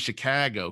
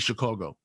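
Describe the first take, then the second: First: The vowel is said flat. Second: The vowel is said round.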